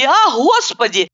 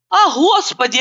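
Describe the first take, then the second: First: «а Господи» drawn out slowly with a falling moan; slower wailing lament. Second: «А Господи» cried out high with a falling wail; wailing lament. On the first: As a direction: stretch «а Господи» into a long moan. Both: A narrator's reading. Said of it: "охая, закатывая глаза и причитая".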